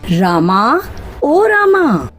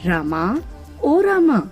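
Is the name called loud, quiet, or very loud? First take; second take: very loud; quiet. First: The name is shouted very loudly. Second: The name is called at normal, quiet volume.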